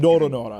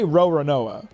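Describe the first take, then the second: First: The first R is a Japanese tapped R. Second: The first R is an American English R. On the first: The speaker calls it wrong. "it doesn't sound right" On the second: The speaker calls it right. "I usually pronounce it with a more American R"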